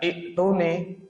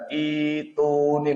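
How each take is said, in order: First: The first vowel is cut short by a stop. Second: The first vowel is lengthened with no stop. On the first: The speaker calls it wrong. "tidak ik tuni" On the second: The speaker calls it right. "menjadi mad badal ituni ... menjadi panjang"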